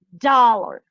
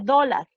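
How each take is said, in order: First: The second syllable has a reduced schwa vowel. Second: The second syllable has a full clear vowel. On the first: "en inglés diría dollar" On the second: "en español dije dólar"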